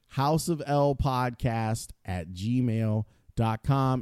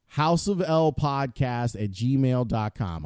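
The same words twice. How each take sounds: First: It is said slowly. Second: It is said at normal speed.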